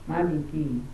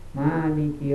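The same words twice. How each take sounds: First: The first vowel is kept short. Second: The first vowel is held long. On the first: The one who reigns as king. "Ada juga dibaca pendek seperti ini" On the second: The one who owns. "pada ayat maliki dibaca panjang"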